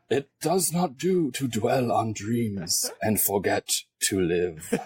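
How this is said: It is said in a put-on old wizard voice.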